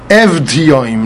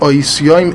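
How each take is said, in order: First: The word starts with 'ev' and a clear v. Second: The word starts with 'oi' and no v. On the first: The speaker calls it right. "The way you really say this word ... You pronounce the vav" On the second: The speaker calls it wrong. "not oisioim"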